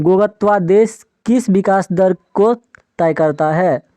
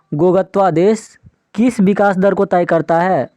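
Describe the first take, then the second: No difference in how they are said.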